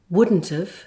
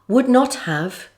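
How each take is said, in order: First: The negative is contracted onto the verb. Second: All words are said in full.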